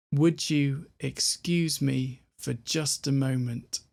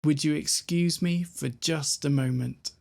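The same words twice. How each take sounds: First: Slow full phrase. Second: Said in the usual way. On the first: Shown as a demonstration. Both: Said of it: "what have we got all together?".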